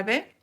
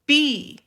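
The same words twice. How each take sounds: First: B said as Spanish "beh"; short "beh" for the letter B; Spanish letter name. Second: B said as English "bee"; higher, louder "bee" for B; English letter name. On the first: Teacher names the letter in Spanish first, B as "beh". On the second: Teacher models English for learners, B as English "bee". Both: Shown as a demonstration. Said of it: "Se pronuncia en inglés como".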